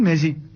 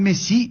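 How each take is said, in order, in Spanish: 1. La tónica está en la primera sílaba. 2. La tónica está en la última sílaba. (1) "No dicen Messi" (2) "por eso le gritan Messi"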